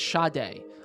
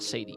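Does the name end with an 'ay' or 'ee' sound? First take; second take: ay; ee. First: The name ends with an 'ay' sound. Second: The name ends with an 'ee' sound. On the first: The speaker calls it right. "It's Sade" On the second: The speaker calls it wrong. "It's not Sadie"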